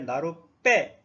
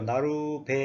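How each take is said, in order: First: The last syllable starts with a tense consonant. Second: The last syllable starts with a plain consonant. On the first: "이렇게 된 소리가 됐다는 뜻입니다" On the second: "원래 된 소리가 아니죠"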